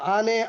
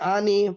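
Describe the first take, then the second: First: The word ends in an e vowel. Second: The word ends in an i vowel.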